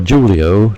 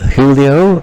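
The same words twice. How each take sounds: First: The name is said the English way. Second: The name is said the Spanish way.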